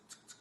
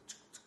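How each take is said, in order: Both takes have the same delivery.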